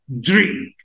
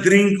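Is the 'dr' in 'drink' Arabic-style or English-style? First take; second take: English; Arabic. First: The dr is said the English way. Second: The dr is said the Arabic way. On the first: The speaker calls it right. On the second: The speaker calls it wrong.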